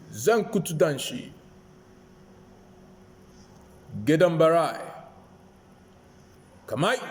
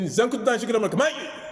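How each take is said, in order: First: It is said slowly, with pauses between parts. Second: It is said quickly, run together without pauses. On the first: The speaker thinks before announcing and avoids blunders. The speaker calls it right. "take your time to say it" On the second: The speaker rushes and mistakes become obvious. The speaker calls it wrong. "Instead of going"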